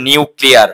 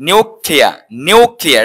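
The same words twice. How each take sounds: First: "নিউক্লিয়ার" with a final r; common mispronunciation. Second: "নিউক্লিয়ার" as NIU-klia, r dropped; correct pronunciation. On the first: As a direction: say নিউক্লিয়ার as niu-kli-ar. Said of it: "not নিউক্লিয়ার". (ভুল উচ্চারণে "নিউক্লিয়ার") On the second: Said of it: "হচ্ছে নিউক্লিয়ার". (শুদ্ধ উচ্চারণে "নিউক্লিয়ার", নিউক্লিয়া) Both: Shown as a demonstration.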